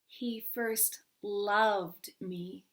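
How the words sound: The stress falls on the word loved. "third word"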